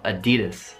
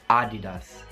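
First: The stress is on the second syllable. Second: The stress is not on the second syllable. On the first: This is the American pronunciation. "ma noi diciamo Adidas" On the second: This is the Italian pronunciation. "in italiano dite Adidas"

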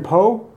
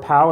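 First: The name is said the French way, like 'po'. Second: The name is said the American way, like 'pow'.

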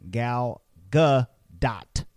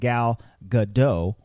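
First: The name ends with a clear T sound. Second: The name ends without a T sound. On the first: The speaker calls it right. "you should be saying Gal Gadot" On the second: The speaker calls it wrong. "If you're not pronouncing the letter T in Gal Gadot's name, you're making a mistake"

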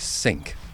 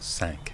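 First: The word is said the English way. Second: The word is said the French way. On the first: This is the form the ceremonial body accepts. The speaker calls it right. "it insists that the word is cinq" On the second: This is the form the ceremonial body rejects. The speaker calls it wrong. "and not cinq"

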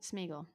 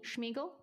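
First: The name begins with an s sound. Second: The name begins with a sh sound. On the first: The speaker calls it right. "No sh. Like smell" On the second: The speaker calls it wrong. "It's not how you had that sh"

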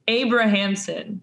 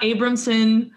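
First: Every syllable, including the middle one, is pronounced. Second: The middle syllable is dropped from the name. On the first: The speaker calls it right. "you pronounce all the syllables" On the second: The speaker calls it wrong. "It's not Abramson"

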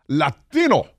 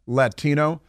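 First: It is said with a put-on Spanish pronunciation. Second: It is said with a plain English pronunciation.

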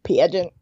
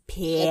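First: It is said imitating Robin's voice. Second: It is said in a normal voice.

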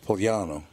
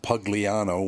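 First: The name is said in the Italian way. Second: The name is said in a non-Italian way. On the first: This is the Italian way to say it. "It's Pugliano" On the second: This is how the man himself might say it. "he might pronounce it Pugliano, which is not the Italian way to say it"

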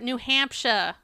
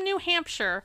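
First: It is said in a local regional accent. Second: It is said in a standard, general accent.

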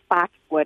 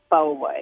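First: 'Faux' is said with an x sound, like 'fox'. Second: 'Faux' is said without an x sound, like 'foe'. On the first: The speaker calls it wrong. "the contractor had no idea what he was talking about" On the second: The speaker calls it right. "He was referring to the faux wood"

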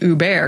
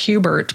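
First: The name is said with French sounds. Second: The name is said with English sounds. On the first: It is the name's real pronunciation. The speaker calls it right. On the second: It is how the name looks to English speakers. The speaker calls it wrong.

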